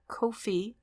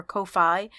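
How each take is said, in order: First: "Ko-fi" said as KOH-fee; "Ko-fi", ending in a long ee sound; first pronunciation variant. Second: "Ko-fi" said as KOH-fye; "Ko-fi", ending in a long eye sound; alternative pronunciation. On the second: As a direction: say "Ko-fi" with the ending rhyming with "pie". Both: Shown as a demonstration. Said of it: "Everyone pronounces it differently".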